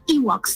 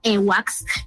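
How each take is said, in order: First: It is said with the usual English pronunciation. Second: It is said with a Spanish-influenced pronunciation. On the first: The speaker calls it right. "It's Ewoks" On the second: The speaker calls it wrong. "not Ewoks"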